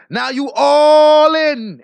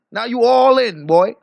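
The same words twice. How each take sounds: First: Louder and very slow, every word stretched; drawn-out loud taunt. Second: Said in the usual way. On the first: Real, not acted. Streamer gloating at Biz, slow loud drawn-out taunt. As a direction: lean into it slowly, savoring the taunt.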